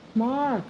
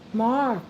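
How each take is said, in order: First: The name is called in a low, deep voice. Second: The same.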